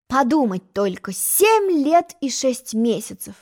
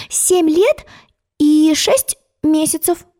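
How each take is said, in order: First: Softer, slow musing repetition; the egg pondering her age; thoughtful. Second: High, slow, precise reply; a girl giving her exact age; careful child answer. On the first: A narrator's reading. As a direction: turn the number over in your head. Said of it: "задумчиво повторил". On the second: Acted. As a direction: count it out proudly.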